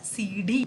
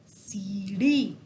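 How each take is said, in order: First: The middle consonant is a full stop. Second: The middle consonant is a quick tongue flap. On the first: The speaker calls it wrong. "सुनने में भी अटपटा सा लग रहा है" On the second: The speaker calls it right. "इससे हम बोलते हैं अड़"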